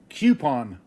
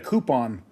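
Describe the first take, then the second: First: The word starts with a kyoo sound. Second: The word starts with a plain koo sound. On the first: "I've always said Q" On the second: "instead of"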